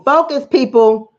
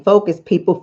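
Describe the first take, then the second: First: Louder, slower, higher; slow insistent plea; emphatic command. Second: Said in the usual way. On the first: Acted. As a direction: hammer home focus.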